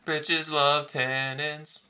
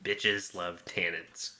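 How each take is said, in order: First: Much higher, very slow playful echo; mock sultry echo. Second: Low, slow, breathy-free sultry drawl, much lower. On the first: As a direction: stretch it out, teasing. Echoing the catchphrase back. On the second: Pretend. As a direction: savor each word like a wine snob. Slow catchphrase riff on wine.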